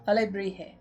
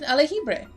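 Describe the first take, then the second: First: The word ends with the sounds 'brije'. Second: The word ends with the sounds 'jibre'. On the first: The speaker calls it right. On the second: The speaker calls it wrong. "I said that wrong"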